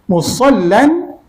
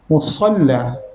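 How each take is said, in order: First: The word ends with an -an sound. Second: The word ends with a long a vowel. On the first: The reading continues past this word. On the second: The reader stops at this word.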